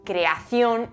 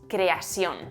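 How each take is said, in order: First: The c is said as a th sound. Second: The c is said as an s sound. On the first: This is the Castilian pronunciation.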